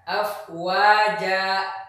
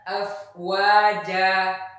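First: The word ends with a glottal stop. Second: The word ends on an open vowel. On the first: The speaker calls it wrong. "bukan afwaja" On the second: The speaker calls it right. "Misalnya ketika membaca afwaja"

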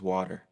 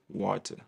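First: The word is said with an American accent. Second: The word is said with a British-style accent. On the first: This is how people in the States say it. "but over here it's water" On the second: This is how people in England say it. "People in England, they say water"

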